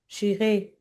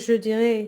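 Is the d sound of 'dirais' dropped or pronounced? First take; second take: dropped; pronounced. First: The words run together and the d disappears. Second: Both words are said fully with a clear d. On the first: This is how it sounds in casual speech. "he says j'irai" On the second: This is the full careful form. "He doesn't say je dirais"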